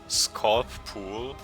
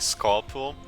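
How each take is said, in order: First: The second syllable sounds like the word pool. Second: The second syllable is a short, reduced pel. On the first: "like scalp, like your head, then pool" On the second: "I was pronouncing it like scalpel"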